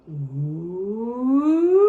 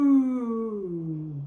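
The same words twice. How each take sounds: First: A gliding ooh that climbs from low to high; voice rising low to high. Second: An ooh that slides down from high to low; voice falling high to low. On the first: Teacher leads kids tracing the turkey's flight, rising ooh. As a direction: trace the turkey flying up into the tree. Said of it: "Let's use our voices to trace his path". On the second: Teacher leads kids tracing the cranberry rolling down, falling ooh. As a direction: trace the cranberry rolling downhill. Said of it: "Start with your voice up high". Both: Shown as a demonstration.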